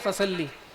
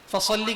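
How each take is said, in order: First: The s is a plain, light sound. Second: The s is a heavy, emphatic sound. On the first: Draw the sword. The speaker calls it wrong. "सीन से" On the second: Pray. The speaker calls it right. "स्वाद के साथ"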